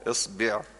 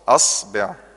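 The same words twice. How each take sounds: First: The word begins with an i vowel. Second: The word begins with an a vowel. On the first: "اكسر الهمزة" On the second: "خلي الأهل الهمزة مفتوحة"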